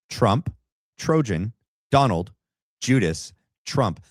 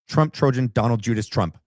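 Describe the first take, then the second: First: The phrase is said slowly and carefully. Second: The phrase is said quickly, like a tongue twister. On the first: "I got to slow down" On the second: "try to say it fast"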